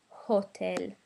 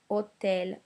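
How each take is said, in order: First: The word starts with an H sound. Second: The word starts directly with a vowel. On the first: The speaker calls it wrong. "not hotel" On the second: The speaker calls it right. "don't pronounce the H"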